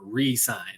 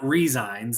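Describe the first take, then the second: First: The middle consonant is an s sound. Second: The middle consonant is a z sound. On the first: He signs again. The speaker calls it right. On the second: He quits. The speaker calls it wrong.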